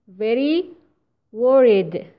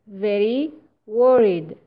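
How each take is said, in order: No difference in how they are said.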